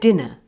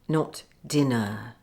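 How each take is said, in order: First: The ending is a weak schwa. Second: The ending is a full vowel. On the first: The speaker calls it right. "don't forget the schwa in the er ending of dinner. Say" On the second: The speaker calls it wrong.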